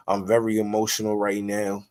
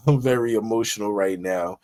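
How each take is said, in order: First: Said in the usual way. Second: A real laugh that runs into the words; laughing at himself. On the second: Real, not acted. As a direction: laugh at your own outburst, then repeat the line.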